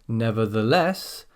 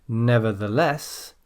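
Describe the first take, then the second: Both takes have the same delivery.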